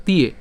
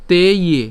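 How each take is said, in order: First: "তিয়ে" run together as one word; "তিয়ে" in one joined sound; joined pronunciation. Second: "তে ইয়ে" said as two separate parts; louder, separated "তে ইয়ে"; split syllables. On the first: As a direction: blend te and ye into "তিয়ে". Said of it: "উচ্চারণ একসাথে করলে তিয়ে". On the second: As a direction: break it into "তে", then "ইয়ে". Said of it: "একসাথে করলে তিয়ে". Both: Shown as a demonstration.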